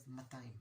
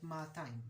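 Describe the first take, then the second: First: Said in the usual way. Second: "ma'atayim" with one long smooth first a; maa-tayim, first vowel held; lengthened first vowel. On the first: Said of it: "the first vowel is short". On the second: Shown as a demonstration. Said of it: "it's more like ma'atayim instead of matayim".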